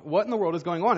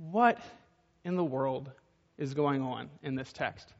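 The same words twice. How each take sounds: First: Said in the usual way. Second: Drawn out, dropping softer; slow and quiet, pausing between words; slow, hushed rhetorical question. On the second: Shown as a demonstration. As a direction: linger on each piece of the question.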